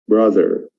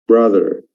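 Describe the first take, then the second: No difference in how they are said.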